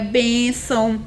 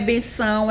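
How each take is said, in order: First: The stress is on the first syllable. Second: The stress is on the last syllable. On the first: The speaker calls it right. "é benção" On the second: The speaker calls it wrong. "e não é benção"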